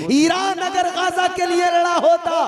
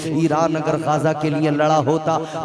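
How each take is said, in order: First: Very high, impassioned oratory; full-force preaching. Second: Said in the usual way. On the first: Real, not acted. Preacher rebuking Iran over Gaza, high full-force preaching. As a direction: cry it out to the crowd at a high pitch.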